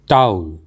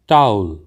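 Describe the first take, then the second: The two takes are said the same way.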